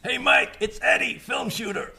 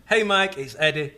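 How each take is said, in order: First: High, hammed-up shouted greeting; Michael Russo style. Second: Raised opening call, easing off; mildly hammed-up email greeting; Michael Russo style. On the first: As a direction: call it out high and throaty. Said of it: "it hurts my throat". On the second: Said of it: "The Michael Russo style".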